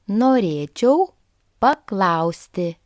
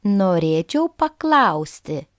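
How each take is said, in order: First: "Norėčiau", rising, then a pause before a slower "paklausti"; teacher's careful word-by-word "Norėčiau ... paklausti"; slowed practice repeat. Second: Said in the usual way. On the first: Shown as a demonstration. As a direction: split it after "Norėčiau" for learners to follow. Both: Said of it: "let's try a common sentence".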